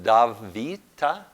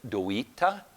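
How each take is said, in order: First: The consonant after the D sounds like V. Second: The consonant after the D sounds like W.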